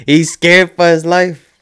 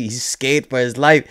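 First: Higher, louder and slower, leaning on scared; stretched-out, stunned exclamation; emphatic, disbelieving repeat. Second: Said in the usual way. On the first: Real, not acted. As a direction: say it again bigger, hammering scared home.

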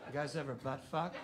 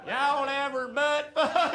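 First: Low, quiet, fast and creepy; serial killer voice. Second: Friendly Southern country accent. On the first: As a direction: ask it like a slasher killer. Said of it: "you sound like a goddamn serial killer". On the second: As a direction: ask it like a cheerful Southern guy. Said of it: "You have to say butt fuck with an accent". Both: Shown as a demonstration.

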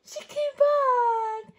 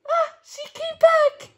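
First: Drawn-out, loud, happy repeat; slow and warm. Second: Loud, high, laughing joy; delighted. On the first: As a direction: savor it slowly for the child. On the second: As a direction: burst out happy with a laugh. Happy ending of the story. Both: Acted.

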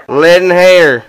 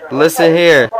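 First: Louder repeat, pushing over the line; louder second listen here; louder insistence. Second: Said in the usual way. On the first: Real, not acted. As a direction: raise it to demand attention.

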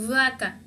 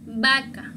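First: "vaca" with a buzzing English v; wrong V sound. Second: "Vaca" with a b, as BA-ka; correct B sound. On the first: Teacher showing how the word should not sound, wrong V. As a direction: say "vaca" with teeth-on-lip v. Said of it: "No se escucha como vaca". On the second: Teacher correcting the V to sound like B, correct pronunciation. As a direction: say "Vaca" with both lips, like b. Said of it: "se dice como la B". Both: Shown as a demonstration.

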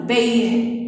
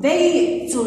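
First: بيه said as "bayh", t replaced by h; بيه with a breath of h for the final t; pausal ha ending. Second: بيت said as "baytun"; higher بيت in full, ending "-tun"; full case ending. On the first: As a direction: end بيه on an audible h. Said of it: "بالهاء؟ ماذا سنقول؟". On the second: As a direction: sound the t and "un" at the end of بيت. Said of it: "هل يصح الوقوف عليها". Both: Shown as a demonstration.

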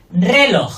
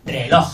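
First: "Reloj" with RE high, long and loud; stress on first syllable. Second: "Reloj" with low RE and strong LOJ; stress on last syllable. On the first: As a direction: punch RE in "Reloj", drop LOJ. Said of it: "no la primera". ("Reloj" con RE fuerte) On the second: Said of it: "Fuerte la última". ("Reloj" con LOJ fuerte) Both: Shown as a demonstration.

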